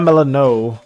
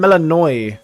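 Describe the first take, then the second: First: The name ends with a 'no' sound. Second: The name ends with a 'noy' sound. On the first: The speaker calls it wrong. "Not Melano" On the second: The speaker calls it right. "I've been saying it wrong this whole time"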